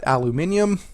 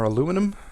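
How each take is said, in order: First: The word is said as aluminium. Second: The word is said as aluminum. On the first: This is not the speaker's usual way of saying it. "I don't say aluminium" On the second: This is the speaker's usual way of saying it. "as I actually say"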